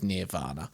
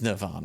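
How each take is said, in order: First: The first syllable sounds like 'near'. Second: The first syllable sounds like 'ner'. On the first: The speaker calls it wrong. "It'd be N E A R, wouldn't it? If it was Nirvana" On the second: The speaker calls it right. "It is Nirvana, isn't it?"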